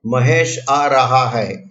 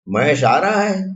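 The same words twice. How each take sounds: First: Slow, falling statement on Mahesh आ रहा है; statement intonation. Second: Mahesh आ रहा है asked with a questioning lift on रहा; questioning intonation. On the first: Teacher demonstrating a statement to students, slow falling tune. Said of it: "ये वाक्य है". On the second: Teacher showing students how a spoken question sounds, questioning lift. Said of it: "प्रश्न एक ऐसे लहके से बोलना पड़ेगा". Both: Shown as a demonstration.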